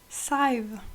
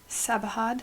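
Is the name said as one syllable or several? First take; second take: one; several. First: The name is said as one syllable. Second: The name is said with several syllables. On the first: The speaker calls it right. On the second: The speaker calls it wrong.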